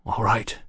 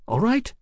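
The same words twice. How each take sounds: First: Understated agreement, a touch breathless; lightly played winded man; breathing hard. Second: Put-on high, rising girlish question; high-voiced London girl asking. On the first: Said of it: "he said, breathing hard". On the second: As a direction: check with him in a pitched-up girl's voice. Hetty asks, Mallory agrees. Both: A narrator's reading.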